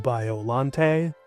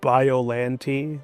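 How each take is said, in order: First: It blends both, keeping the Bio part clear. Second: It uses the English dub pronunciation. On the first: "meet in the middle" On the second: "The dub says it Biollante"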